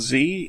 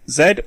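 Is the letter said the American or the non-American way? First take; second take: American; non-American. First: The letter is said the American way. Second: The letter is said the non-American way.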